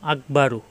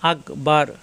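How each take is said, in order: First: The word ends with an added u vowel. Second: The word ends on the r consonant.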